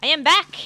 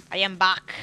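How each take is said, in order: First: Loud, high Austrian Terminator try at "back"; failed Austrian accent. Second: Put-on failed Austrian accent. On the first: Retold or imitated. Gamer botching a Terminator quote, loud bad Austrian accent. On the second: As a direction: growl "I am back" in a bad Austrian accent. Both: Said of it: "I can't do an Austrian accent".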